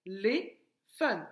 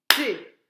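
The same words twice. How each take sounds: First: "Téléphone" stretched slowly té-lé-phone; slow syllables. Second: "Téléphone" loud, beat by beat té-lé-phone; clapped syllables. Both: Shown as a demonstration. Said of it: "Frappe, téléphone".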